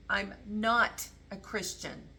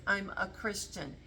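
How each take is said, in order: First: Slow down and lean on "not"; misheard version. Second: Said in the usual way. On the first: Shown as a demonstration. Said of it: "It sounds like". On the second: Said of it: "it doesn't sound like he says".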